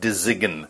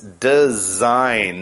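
First: The word is said with a G sound. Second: The word is said with no G sound. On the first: The speaker calls it wrong. "not design" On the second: The speaker calls it right. "you don't actually say that G sound at all"

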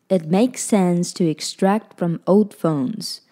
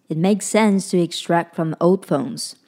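The two takes are said the same way.

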